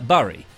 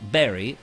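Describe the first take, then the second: First: It is not said like 'berry' in strawberry. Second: It is said like 'berry' in strawberry. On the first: The speaker calls it right. "It's Bury, not berry" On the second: The speaker calls it wrong. "not Berry"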